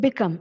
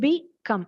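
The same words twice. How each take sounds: First: Said in the usual way. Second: "become" in two separate parts, be, come; short pause inside "become"; split into syllables. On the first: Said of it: "the word become". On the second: Shown as a demonstration. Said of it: "ഇതൊക്കെ എളുപ്പമുള്ള വാക്കുകളാണ്".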